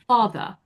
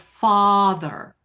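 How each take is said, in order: First: The first vowel has slight lip rounding. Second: The first vowel is open with unrounded lips. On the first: "even that has a slight rounding" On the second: "instead of father"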